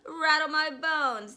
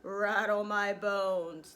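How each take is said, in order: First: High, loud spooky parrot call; slow, high ghostly imitation. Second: Slow, loud ghostly drawl; a parrot doing a spooky voice, drawn right out. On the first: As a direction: draw it out loudly like a spooky parrot. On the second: Acted. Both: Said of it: "giving a wonderful imitation of a spooky voice".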